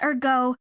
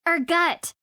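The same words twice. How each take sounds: First: Ergo ending in a long oh; wrong pronunciation. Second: Ergut said with a hard t ending, er-gut; Ergut, the right way, er-GUT; corrected pronunciation. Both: Shown as a demonstration. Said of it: "Not ergo".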